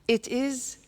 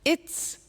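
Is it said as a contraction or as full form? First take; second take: full form; contraction. First: It is said as two full words. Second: It is said as one contracted syllable.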